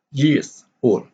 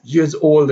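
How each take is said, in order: First: Put-on YEARS stressed, "old" left unstressed; alternating stress. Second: Put-on YEARS OLD, equal weight on both words; both words stressed. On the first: Teacher showing the rhythm, stress on "years" but not "old". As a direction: beat out "years old" as strong then weak. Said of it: "like a iambic pattern of rhythm". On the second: Teacher showing how rhythm changes, stress on both "years" and "old". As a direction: hit "years" and also "old". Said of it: "because if it is stress". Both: Shown as a demonstration.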